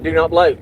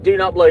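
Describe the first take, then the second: First: Firm "Do not blow"; retold warning. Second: "Do not blow" with "do" hit hard and louder; repeated warning. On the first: Telling the woman at the station: firm warning not to blow. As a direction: stress on "blow", said firmly. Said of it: "I told her, I said". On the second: Retold or imitated. Repeating it to the woman: louder, insistent warning. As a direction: stress on "do", louder and firm. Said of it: "I said".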